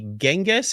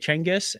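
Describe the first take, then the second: First: The name starts with a j sound. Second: The name starts with a ch sound. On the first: This form came later through translation. "if you say Genghis" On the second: This is the original Mongolian pronunciation. "I will say Cengiz as in C H"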